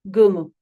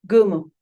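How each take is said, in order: Both takes have the same delivery.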